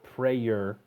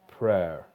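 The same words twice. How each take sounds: First: The vowel does not match the 'air' sound. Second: The vowel matches the 'air' sound. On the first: The speaker calls it wrong. "It's not prayer" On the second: The speaker calls it right. "that same air sound"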